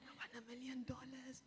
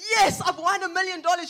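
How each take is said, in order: First: It is said calmly, without much excitement. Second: It is said with loud, joyful excitement.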